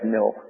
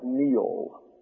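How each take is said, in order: First: It is said in a northern accent. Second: It is said in a southern accent. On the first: "Maybe up there they say Nil" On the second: "But his name is Neal. Get the L"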